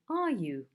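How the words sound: The voice falls at the end.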